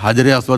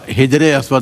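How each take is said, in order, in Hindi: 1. पहला शब्द 'haj' की आवाज़ से शुरू होता है। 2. पहला शब्द 'hij' की आवाज़ से शुरू होता है। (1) "हजरे अस्वद होता है" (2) "हिजरे अस्वद नहीं होता"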